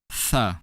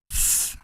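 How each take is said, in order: First: "th" voiced as "thuh"; exaggerated ending sound. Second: Said in the usual way. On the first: Shown as a demonstration. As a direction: release "th" into a short added vowel. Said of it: "pronounce these sounds much louder than usual". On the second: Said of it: "check out the other ending sounds".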